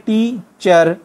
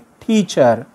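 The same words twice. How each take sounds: First: The first t sound is plain, unaspirated. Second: The first t sound is strongly aspirated. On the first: "टीचर हम कैसे लिखते हैं?" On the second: "टे की जगह वो ठे लगाएंगे"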